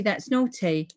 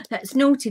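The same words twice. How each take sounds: First: Said in the usual way. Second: Gasp, then a teasing scold, higher; mock scolding gasp. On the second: Real, not acted. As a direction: playfully scold a friend with a gasp. Gasps at unfinished card.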